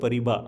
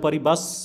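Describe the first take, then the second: First: The final s sound is silent. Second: The final s sound is pronounced. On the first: The speaker calls it right. "এর উচ্চারণটা হয় পরিবা" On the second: The speaker calls it wrong. "এটা পরিবাস হয়তো লেখা আছে"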